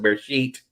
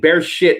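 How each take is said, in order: First: The second word has a long vowel, like 'sheet'. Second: The second word has a short vowel, like 'shit'.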